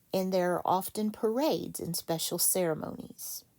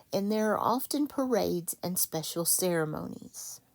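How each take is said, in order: Both takes have the same delivery.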